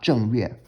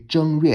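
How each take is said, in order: First: "Zheng Yue" with a falling tone on Zheng; "Zheng Yue", Zheng said with the common falling fourth tone. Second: "Zheng Yue" with a high level tone on Zheng; "Zheng Yue", Zheng kept flat as a first tone. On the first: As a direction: drop the pitch on "Zheng" as in 正在, then "Yue". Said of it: "as opposed to more common pronunciation with Zheng". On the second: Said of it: "pronounced with the level tone in Mandarin as the first tone". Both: Shown as a demonstration.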